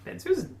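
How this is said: Barely any pause separates the two names. The speaker calls it right. "That's it. This doesn't sound like a pause at all"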